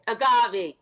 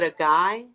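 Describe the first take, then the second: First: The word is said like 'a-gah-vay'. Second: The word is said like 'a guy'. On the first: The speaker calls it right. "Thank you. That's it" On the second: The speaker calls it wrong. "I'm gonna say it wrong"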